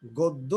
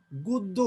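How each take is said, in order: First: Said in the usual way. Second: গদ্য said as গুদ্য, first vowel rounded; গদ্য pronounced "গোদ্দো"; initial অ as ও. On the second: Shown as a demonstration. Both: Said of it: "আদ্য অধ্বনি ও এর মতো উচ্চারণ হচ্ছে".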